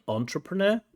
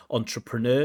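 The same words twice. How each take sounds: First: Entrepreneur stressed too early, on the middle syllable; wrong word stress. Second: Entrepreneur mit Betonung am Ende; correct word stress. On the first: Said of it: "not entrepreneur". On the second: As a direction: stress the last syllable of entrepreneur, -NEUR. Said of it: "uh, word stress". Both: Shown as a demonstration.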